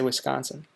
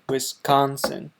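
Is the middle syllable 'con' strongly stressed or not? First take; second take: not stressed; stressed. First: The middle syllable 'con' is not strongly emphasized. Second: The middle syllable 'con' is strongly emphasized. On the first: This is how people from the state say it. "I say Wisconsin" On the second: This is how some other Americans say it. "They seem to put an emphasis on the con"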